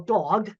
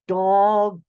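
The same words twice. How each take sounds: First: The word is said at a normal, quick pace. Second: The word is said slowly with each sound distinct.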